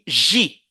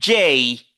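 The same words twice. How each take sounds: First: The letter is said with a French pronunciation. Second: The letter is said with an English pronunciation. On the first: "en français, on dit J" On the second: "en anglais, on dit J"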